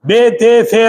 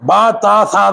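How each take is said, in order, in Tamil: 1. எழுத்துப் பெயர்கள் 'eh' உயிரொலியில் முடிகின்றன. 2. எழுத்துப் பெயர்கள் 'ah' உயிரொலியில் முடிகின்றன. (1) "பே தே சே எல்லாம் இல்ல" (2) "பா தா சா தான்"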